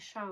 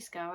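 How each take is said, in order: First: The name begins with an sh sound. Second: The name begins with an sk sound. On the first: The speaker calls it wrong. "I was saying Shaw all this time" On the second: The speaker calls it right. "until I heard Stephen Jones say Scow"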